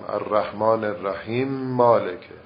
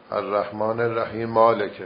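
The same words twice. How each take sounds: First: «الرحیم مالکه» with a silent mim then a second mim with fatha; «الرحیمْ مالکه» two distinct mims in one breath; two mims, joined with sukun. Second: «الرحیم مالکه» with the mim of «الرحیم» left out entirely; dropped mim, wrong. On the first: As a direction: say both mims of «الرحیم مالکه» clearly, the first without its vowel. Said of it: "میم رو قشنگ ساکنش رو میگه، بعدم میم دوم رو میگه". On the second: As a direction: run «الرحی» straight into «مالکه», only one mim. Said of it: "میمش رو نمیگه، میم مالک رو میگه". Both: Shown as a demonstration.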